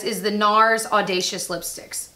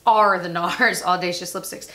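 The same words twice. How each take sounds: First: "is the nars Audacious Lipsticks" read slowly with "is"; "is" then "nars Audacious", slow careful read; wrong word. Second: "are the nars Audacious Lipsticks" with a laugh, stressing "are"; self-correct with "are" said firmly; corrected word. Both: Shown as a demonstration.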